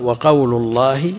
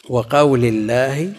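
First: وقول in the nominative, final lam voweled u, drawn out slowly; slow, clear wa-qawlu for وقول; damma on the lam of وقول. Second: وقول in the genitive, final lam voweled i, drawn out slowly; slow, clear wa-qawli for وقول; kasra on the lam of وقول. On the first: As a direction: say وقول with a short "u" ending, wa-qawlu. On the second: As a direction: say وقول with a short "i" ending, wa-qawli. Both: Shown as a demonstration. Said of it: "اللام فوقها ضمة وتحتها كسرة".

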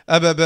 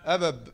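First: أبب read loudly as "ababa", open final vowel; loud "a-ba-ba" for أبب, ending on "a"; another reading. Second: أبب read as "abab", closed on a final b; first reading. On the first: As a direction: say أبب as three open syllables, "a-ba-ba". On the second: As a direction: stop أبب on the consonant, "a-bab". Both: Shown as a demonstration. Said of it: "قراءة أخرى؟".

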